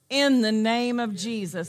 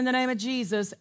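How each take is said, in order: First: It is said deliberately, after a hesitating pause. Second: It is said casually, running on without a stop. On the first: The name is recognized as the highest authority. The speaker calls it right. "I am stopping and I am recognizing I'm about to say something" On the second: The name is said without recognizing its weight. The speaker calls it wrong. "be casual and say it from here only"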